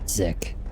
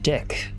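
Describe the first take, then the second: First: The name begins with a Z sound. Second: The name begins with a D sound. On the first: The speaker calls it wrong. "You don't pronounce it Zick" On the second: The speaker calls it right. "Sergeant Dick"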